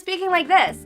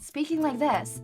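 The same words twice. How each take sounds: First: The voice is high-pitched and nasal. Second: The voice is soft and airy. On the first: "being up here very high in the fucking nose" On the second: "being very airy"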